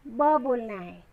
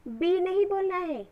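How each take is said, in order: First: ब said as a short phonic sound, lower; ब की ध्वनि. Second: बी as the letter name, not the sound; अक्षर का नाम बी. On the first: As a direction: say just ब, short. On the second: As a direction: say बी, the wrong way for phonics. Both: Shown as a demonstration.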